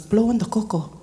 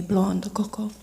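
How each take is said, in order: First: Imitated uncle's punchline instruction; retold playful command, in a changed voice; cheeky order. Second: Said in the usual way. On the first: Uncle changing the subject to his cocoa, cheeky.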